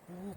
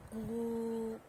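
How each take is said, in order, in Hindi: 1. स्वर बहुत कम देर के लिए बोला गया है। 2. स्वर बहुत लंबा खींचकर बोला गया है। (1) "ह्रस्व" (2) "प्लुत"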